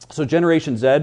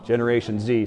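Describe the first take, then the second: First: The letter is said the Canadian way, zed. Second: The letter is said the American way, zee.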